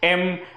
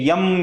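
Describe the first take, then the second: First: It begins with a plain vowel. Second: It begins with a y sound. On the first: The speaker calls it right. "एम एन असा असतो" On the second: The speaker calls it wrong. "हे यम यल असं नाही होत"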